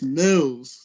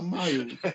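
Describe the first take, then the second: First: The vowel is short, as in fills. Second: The vowel is long, as in files. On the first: The speaker calls it right. "it's Mills" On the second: The speaker calls it wrong. "He called me Miles"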